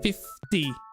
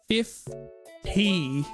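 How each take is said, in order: First: The word is said in a plain, neutral way. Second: The word is said in a condescending way.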